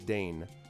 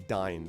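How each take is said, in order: First: The vowel rhymes with day. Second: The vowel rhymes with fine. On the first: This is how the audio version says it. "the audio version it says still says Dane" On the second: This is how the player wants it said. "you want to say Dine"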